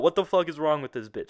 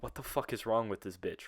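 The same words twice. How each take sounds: First: Louder, higher exasperated outburst; punchy, raised-voice incredulity; emphatic repeat. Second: Said in the usual way. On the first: Shown as a demonstration. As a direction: say it out loud with amused disbelief. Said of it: "I'm gonna say that".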